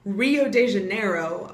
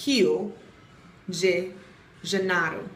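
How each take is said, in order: First: Rio de Janeiro with an English R in Rio; English pronunciation. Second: Rio de Janeiro with H sound in Rio and tapped r in Janeiro; Portuguese pronunciation. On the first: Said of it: "we've all been saying". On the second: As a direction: say Rio de Janeiro word by word the Brazilian way. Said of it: "and it's". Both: Shown as a demonstration.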